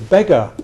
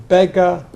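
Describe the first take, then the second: No difference in how they are said.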